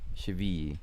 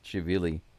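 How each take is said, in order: First: The double L is said as a Y sound. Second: The double L is said as an L sound. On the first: The name is said the way the broadcasters say it. "the two L's has the Spanish sound" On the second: The name is read as it is spelled. "It looks like Chivili"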